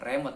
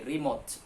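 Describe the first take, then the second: First: The first vowel sounds like 'eh'. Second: The first vowel sounds like 'ee'. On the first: The speaker calls it wrong. "bukan remote" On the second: The speaker calls it right. "tapi remote ya, karena e itu sering atau dalam ejaan bahasa Inggris dibaca dengan i"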